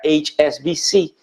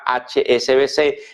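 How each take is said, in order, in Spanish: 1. Las letras se pronuncian con nombres de letras en inglés. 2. Las letras se pronuncian con nombres de letras en español.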